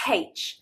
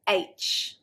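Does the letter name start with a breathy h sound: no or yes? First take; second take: yes; no. First: The letter name starts with a breathy h. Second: The letter name starts with no h sound. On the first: The speaker calls it wrong. "pronounce it with a H" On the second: The speaker calls it right. "But the actual letter"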